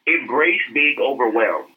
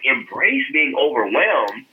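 First: Said in the usual way. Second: Slow, puzzled echo of "Embrace being overwhelmed?"; incredulous repeat. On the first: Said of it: "Dan Loke said". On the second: Retold or imitated. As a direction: drag out "Embrace being overwhelmed?" as if he can't believe it. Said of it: "I was just like".

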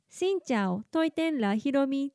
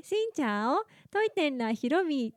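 First: シンチャオトイテンラヒロミ said the Vietnamese way, not in flat katakana; Vietnamese pronunciation. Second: シンチャオトイテンラヒロミ read as Japanese katakana syllables; Japanese katakana pronunciation. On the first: ベトナム人に向けた挨拶、本来のベトナム語発音で. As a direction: give シンチャオトイテンラヒロミ real Vietnamese sounds. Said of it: "本当は". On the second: いつもの自己紹介、カタカナ読みの発音. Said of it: "いつもね". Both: Shown as a demonstration.

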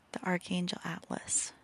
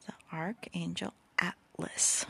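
First: Said in the usual way. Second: Whispered slowly, every syllable clear. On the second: Shown as a demonstration. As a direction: spell it out slowly for them. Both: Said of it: "I don't know if I'm enunciating".

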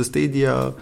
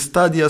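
First: "Stadia" said as STAY-dia; English pronunciation. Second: "Stadia" read as written, with an open a; pronounced as spelt. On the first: Co-host shows how the platform's name is pronounced, English pronunciation. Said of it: "se pronunță Stadia". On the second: Co-host shows how the platform's name is written, spelling pronunciation. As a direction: say "Stadia" as STAH-dia, the spelling reading. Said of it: "E scris Stadia". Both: Shown as a demonstration.

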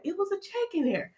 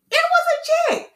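First: High, soft, amazed reveal; hushed amazed reveal. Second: Very high-pitched, amazed squeal; excited squeal. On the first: Vlogger revealing what was in the mailbox, hushed amazement. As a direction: reveal the surprise softly, pitched high. Suspenseful reveal of a surprise check. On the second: Vlogger telling viewers the check really came, squealing excitement. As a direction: squeal the news in delight. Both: Retold or imitated.

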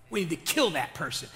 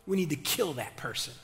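The two takes are said the same way.

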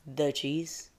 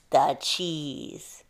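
First: Softer echo, rising on "cheese"; unamused query. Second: Drawn-out, dramatic falling "cheese"; awed reveal. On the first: Bear not amused by the mouse's reason, soft questioning echo. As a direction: repeat it quietly as a doubtful question. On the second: Big-eyed mouse revealing what she wants, awed and drawn out. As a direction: let "cheese" linger in wonder. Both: A narrator's reading.

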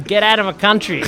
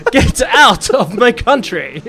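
First: Quicker, run-together Australian accent; raised-voice Australian demo. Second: Loud, high, drawn-out British accent; slow, emphatic British delivery on request. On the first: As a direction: say it loud in casual Australian. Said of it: "If you said it in Australian". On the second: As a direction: proclaim it in hammed-up British. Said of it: "in British?". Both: Shown as a demonstration.

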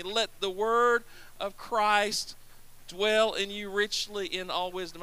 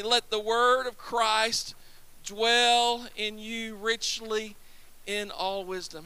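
First: Slow, measured phrasing; slow recitation. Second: Slower still, each phrase held; slow recitation. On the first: Preacher leading the congregation in reciting the verse slowly. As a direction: lead them through the verse word by word. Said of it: "Say that with me". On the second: Preacher repeating the verse with the congregation, slower. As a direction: draw out every word for them to follow. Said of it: "say it with me". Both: Shown as a demonstration.

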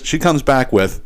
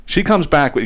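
First: Slowed-down teasing lead-in; slow, dramatic build-up. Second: Said in the usual way. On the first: Shown as a demonstration. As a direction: stretch it out to build suspense. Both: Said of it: "you ready for this?".

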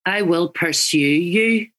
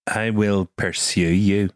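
First: Slow Northern Irish, pursue with a dipped you; Northern Irish accent. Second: Learner's Northern Irish, pursue with a dip; Northern Irish copy. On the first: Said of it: "Northern Irish". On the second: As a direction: copy the teacher's accent. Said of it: "we're getting [name] now". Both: Shown as a demonstration.

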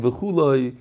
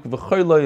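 First: "v'chuloi" said as v'KHOO-loy. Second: "v'choyloi" said as v'KHOY-loy. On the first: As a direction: give "v'chuloi" an oo in its first full syllable. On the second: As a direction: give "v'choyloi" an oy in its first full syllable. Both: Shown as a demonstration. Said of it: "that kind of diktuk".

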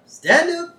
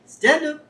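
First: Higher and more insistent coax; coaxing command, pushed. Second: Coaxing command. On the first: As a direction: urge the dog harder, up high. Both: Retold or imitated. Burns coaxing his puppy.

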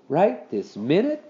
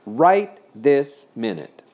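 First: Slow, mournful rising question. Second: Slow, loud, falling statement; firm answer. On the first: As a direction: ask it reluctantly, drawing it out. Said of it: "Henry asked mournfully". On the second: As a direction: lay down the law, word by word. Mother firmly answers the question. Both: A narrator's reading.

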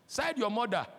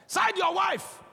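First: Said in the usual way. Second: Emphatic shout. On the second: Acted. Preacher contrasts siding mother vs wife.

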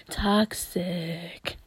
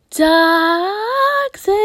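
First: Low whispery echo. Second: Drawn-out mock yell. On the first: Pretend. Repeats the word low after belting. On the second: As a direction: wail the word toxic in a high, loud voice. Chants the word in contrasting voices.

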